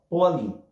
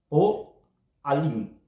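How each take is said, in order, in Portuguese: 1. É dita rápido, sem interrupção. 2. É dita devagar, com uma pausa gutural antes do 'a'. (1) "numa forma corrida" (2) "se você ler mais calmamente"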